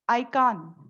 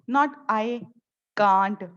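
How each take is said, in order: First: The final t sound is dropped. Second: The final t sound is clearly pronounced. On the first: The speaker calls it right. "the last word is never pronounced" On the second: The speaker calls it wrong.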